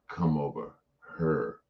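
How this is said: The word 'here' sounds like 'her'. This is how people further up say it. "we don't say uh"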